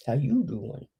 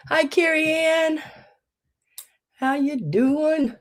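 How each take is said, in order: First: Said in the usual way. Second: Cheery greeting. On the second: Real, not acted. Greeting viewer.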